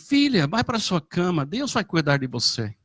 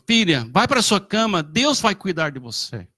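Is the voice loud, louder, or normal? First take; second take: normal; louder. First: It is said at a normal volume. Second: It is said loudest, as a firm order.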